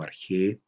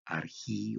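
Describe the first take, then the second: First: "arjé" ending in a stressed E sound; pronunciación con e. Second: "arjí" ending in a stressed EE sound; pronunciación con i. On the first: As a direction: say "arjé" slowly, final E stressed. ("arjé" lento, con e final tónica) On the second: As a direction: say "arjí" slowly, final I stressed. ("arjí" lento, con i final tónica) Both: Shown as a demonstration. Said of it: "arjí o arjé".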